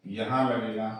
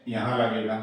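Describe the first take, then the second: No difference in how they are said.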